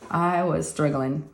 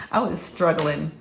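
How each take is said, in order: First: Said in the usual way. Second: Laughing. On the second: Real, not acted.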